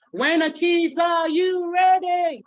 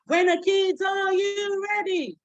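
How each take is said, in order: First: High, loud, drawn-out call; teacher call. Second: High, drawn-out call; teacher call. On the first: Call-and-response with kids. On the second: Call-and-response repeated. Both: Shown as a demonstration. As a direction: call out to the class.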